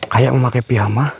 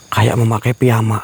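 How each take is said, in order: Both takes have the same delivery.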